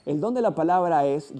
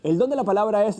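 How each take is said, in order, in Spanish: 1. Se lee a un ritmo medio. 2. Se lee muy rápido. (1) "una lectura con una velocidad promedio" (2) "hago una lectura muy rápida"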